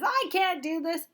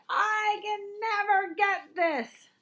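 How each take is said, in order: First: Mock complaint. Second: High, slow whiny complaint on never; frustrated whine. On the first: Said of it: "what you can say instead". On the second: Acted. Teacher showing the fixed-mindset complaint to avoid. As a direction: drag it out like a stuck kid. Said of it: "when you're saying something like".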